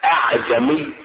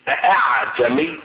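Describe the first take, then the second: First: Only one glottal stop is heard at the start. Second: The second glottal stop is fully pronounced. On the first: "بهمزة واحدة" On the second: "بنطق الهمزة الثانية"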